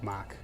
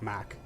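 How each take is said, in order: First: It is said with an American accent. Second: The same.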